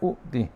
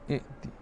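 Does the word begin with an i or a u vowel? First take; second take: u; i. First: The word begins with a u vowel. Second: The word begins with an i vowel. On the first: The speaker calls it wrong. "jangan baca u'ti" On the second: The speaker calls it right. "kita baca i'ti"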